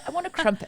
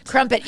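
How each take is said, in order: First: Put-on high, terrible British accent; badly faked Brit, pitched way up. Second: Said in the usual way. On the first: Podcaster joining friend's British game, bad British accent. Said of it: "We're terrible. I need a better a-, accent".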